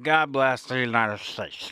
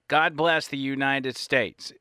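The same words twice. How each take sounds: First: It is said slurred, like loose dentures. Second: It is said clearly, with crisp words.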